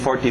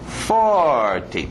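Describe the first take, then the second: First: Both syllables get even stress, no clear beat. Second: The stress falls clearly on the first syllable. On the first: The speaker calls it wrong. "sem ritmo nenhum" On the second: The speaker calls it right. "e aqui bater no início"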